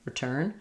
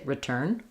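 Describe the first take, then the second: Both takes have the same delivery.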